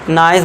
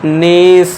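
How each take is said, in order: First: The vowel is an 'eye' sound. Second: The vowel is a long 'ee' sound. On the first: The speaker calls it wrong. "नाइस मत पढ़ देना, इसे गलत हो जाएगा" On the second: The speaker calls it right. "इसे हम नीस पढ़ेंगे"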